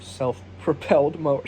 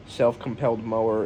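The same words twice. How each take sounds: First: Said in the usual way. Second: Self-compelled mower, with a k sound: self-com-pelled; eggcorn self-compelled. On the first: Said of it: "instead of". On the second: Shown as a demonstration. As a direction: say Self-compelled where self-propelled belongs. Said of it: "instead of self-propelled mower".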